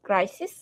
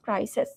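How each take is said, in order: First: ক্রাইসিস ending in a short "-sis"; singular -is ending. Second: ক্রাইসিস said as "crises", ending "-ses"; plural -es ending. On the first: Teacher gives students the singular, ক্রাইসিস ending in "-is". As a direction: say ক্রাইসিস with a short i in the last syllable. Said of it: "শেষে যদি আইএস থাকে". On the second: Teacher turns singular into plural, ক্রাইসিস ending in "-es". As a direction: open the last vowel of ক্রাইসিস to e. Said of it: "আইএসটাকে তুমি ইএস করে দাও". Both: Shown as a demonstration.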